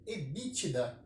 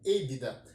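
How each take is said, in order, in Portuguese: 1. Ela é pronunciada com sons do português brasileiro. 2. Ela é pronunciada com sons do inglês americano.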